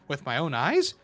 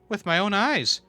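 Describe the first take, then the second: First: It is said as a question, rising. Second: It is said as a statement, falling.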